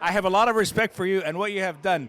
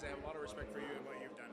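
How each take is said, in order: First: It is said louder than before. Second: It is said at normal, softer volume.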